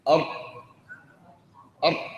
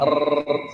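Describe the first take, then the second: First: The r is fully blocked with no air. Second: The r is trilled with several taps. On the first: "يغلق المخرج تماما فتنحبس الراء" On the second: "بأكثر من راء"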